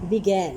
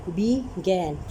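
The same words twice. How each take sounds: First: Said in the usual way. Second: "began" broken in two, be, then gan; split into syllables. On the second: Shown as a demonstration. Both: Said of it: "ये टू syllable वाला बन गया".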